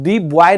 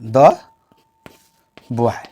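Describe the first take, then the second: First: The article is said with a long 'dee' vowel. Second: The article is said with a short 'duh' vowel. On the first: The speaker calls it wrong. "मगर डी boy नहीं बोलेंगे" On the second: The speaker calls it right. "द करेंगे"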